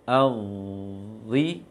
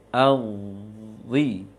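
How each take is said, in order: The two takes are said the same way.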